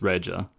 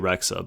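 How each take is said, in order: First: The middle consonant is a 'j' sound. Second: The middle consonant is a 'ks' sound. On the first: This is the original Albanian pronunciation. The speaker calls it right. "but it's Regia" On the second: This is how most English speakers say it. The speaker calls it wrong. "they say Rexa"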